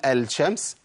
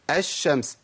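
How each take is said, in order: First: "الشمس" said "al-shams" with a clear l; sounded lam. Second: "الشمس" said "ash-shams", no l; merged lam. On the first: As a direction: wrongly pronounce the l before sh in "الشمس". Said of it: "ينفع أقول الشمس؟". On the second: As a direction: double the sh and drop the l in "الشمس". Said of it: "فقالوا إيه؟". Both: Shown as a demonstration.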